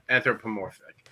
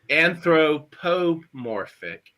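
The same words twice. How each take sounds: First: The syllables flow smoothly without exaggerated accents. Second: Each syllable is exaggerated and strongly accented. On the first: "just smoother" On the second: "I over accentuated to make the point"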